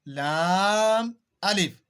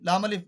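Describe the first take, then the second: First: Each letter name is said slowly and fully. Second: The letter names are rushed together quickly. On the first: The speaker calls it right. "पूरा पढ़ने के लिए हम बोलते हैं लाम अलिफ" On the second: The speaker calls it wrong. "जल्दी जल्दी पढ़ने की कोशिश करना, वो ये होता है"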